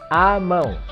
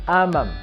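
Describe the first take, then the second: First: The ending is a nasal vowel without closing. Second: The ending closes with a full M sound. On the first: The speaker calls it right. "It's amão" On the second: The speaker calls it wrong. "It's not amam"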